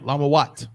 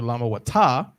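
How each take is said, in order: First: The word ends on a bare t sound. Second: The word ends with an added a vowel. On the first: The speaker calls it right. "with a ta at the end" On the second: The speaker calls it wrong. "You don't say Lamawata"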